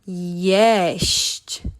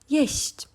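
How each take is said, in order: First: The word is said slowly with each sound drawn out. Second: The word is said quickly without stressing the final sounds. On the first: "Let's pronounce it slowly" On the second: "in real life, uh, accent the sh and the chi. We just say jeść"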